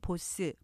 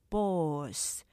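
First: The word is said as two syllables. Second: The word is said as one syllable. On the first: The speaker calls it wrong. "보스 이렇게 이음절로 하시지만" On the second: The speaker calls it right. "하나로 발음하셔야 되고요"

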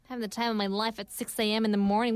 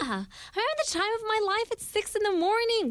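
First: It is said flatly with low energy. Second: It is said upbeat with high energy.

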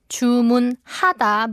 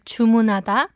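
First: Each syllable is said separately and clearly. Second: The syllables run together in natural speech.

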